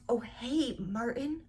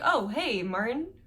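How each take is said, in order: First: It is said in a put-on character voice. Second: It is said in the speaker's natural voice.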